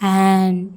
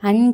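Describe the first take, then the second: First: The vowel is a long 'aa'. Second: The vowel is a short 'a'. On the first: The speaker calls it right. "ஆ அப்படின்னு உச்சரிக்கணும்" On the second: The speaker calls it wrong. "அன் கிடையாது"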